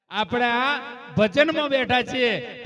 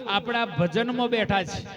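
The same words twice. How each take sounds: First: ભજનમાં drawn out and leaned on, whole line slowed and louder; slow down and press ભજનમાં home; stress on ભજનમાં. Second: Said in the usual way. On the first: Shown as a demonstration. Preacher driving the point home to the congregation, leaning on ભજનમાં.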